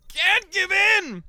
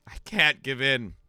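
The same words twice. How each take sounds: First: High, loud, very drawn-out cry; mock desperate shout. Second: Slow, slightly louder refusal; mock resolve. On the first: Exhausted streamer fighting own body, hammed-up desperate shout. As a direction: strain it out loud as a hammed-up battle against sleep. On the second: Exhausted streamer refusing to yield to sleep, mock resolve. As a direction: hold out against tiredness, measured. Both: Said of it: "and I'm like".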